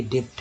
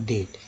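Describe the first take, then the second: First: डेब्ट with a b or p sound before t; डेब्ट read as it is spelt. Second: डेट with no b before the t; silent b. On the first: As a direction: let the consonant before t be heard in डेब्ट. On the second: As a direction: say डेट as "det", b dropped. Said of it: "क्या पढ़ेंगे". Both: Shown as a demonstration.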